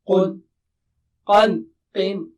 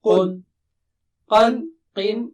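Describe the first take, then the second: Both takes have the same delivery.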